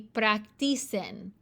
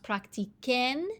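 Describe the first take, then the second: First: The consonant before the ending sounds like s. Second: The consonant before the ending sounds like k. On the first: The speaker calls it wrong. "if we just left this a C, it would be practicen. But that's not the way the word is pronounced" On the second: The speaker calls it right. "so it has to be pronounced practiquen"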